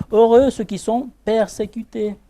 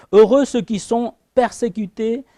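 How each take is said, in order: The two takes are said the same way.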